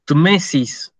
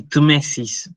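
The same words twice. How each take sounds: First: Said in the usual way. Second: "Tmesis" with the t and m together, TME-sis; pronouncing Tmesis. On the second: Shown as a demonstration. Teacher shows the class how "Tmesis" is read. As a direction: model "Tmesis" cleanly, stress on the first syllable. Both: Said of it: "esto se lee así".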